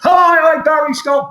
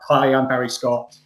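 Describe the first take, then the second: First: It is said very loudly and energetically. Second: It is said calmly, like a natural announcer.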